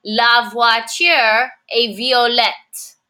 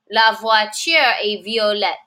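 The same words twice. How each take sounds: First: Slow, careful French with each word spaced out; slow model sentence. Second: Said in the usual way. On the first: Shown as a demonstration. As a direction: say it slowly for learners to copy.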